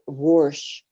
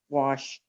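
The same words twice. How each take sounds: First: An r sound is added before the sh. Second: No r sound comes before the sh. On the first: This is how a family member said it. "he would say wa- wash" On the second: This is the usual way to say it. "wouldn't say wash"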